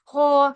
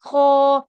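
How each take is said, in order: The two takes are said the same way.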